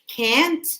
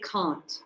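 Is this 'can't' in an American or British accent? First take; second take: American; British. First: It is said in an American accent. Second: It is said in a British accent. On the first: "if you're we uh, use an American accent, then you will say can't" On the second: "But if it's British or Aussie or Canadian, so we say can't"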